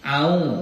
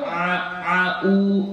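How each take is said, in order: First: Only a glottal catch, with no throat sound. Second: A throat sound first, then a glottal catch. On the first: "Jangan dibaca au. Au, a'udzu billah, itu salah" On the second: "atau dibacanya ain duluan. A'u, a'u, salah juga"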